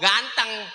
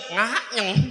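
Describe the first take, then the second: First: The word is said with a normal, clear voice. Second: The word is said with a blocked, nasal voice. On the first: "kalau kata kita mah" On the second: "lo orang bindeng"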